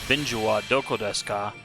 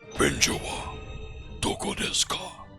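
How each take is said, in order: First: It is said in a normal speaking voice. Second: It is said in an exaggerated deep voice. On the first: "instead of speaking normally" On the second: "Just to mimic how these guys talk"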